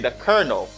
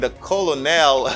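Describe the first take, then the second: First: The first syllable sounds like 'ker', as in kernel. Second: The first syllable sounds like 'col', as spelled. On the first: The speaker calls it right. "You say the colonel" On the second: The speaker calls it wrong. "Instead of saying the colonel, no, they don't say that"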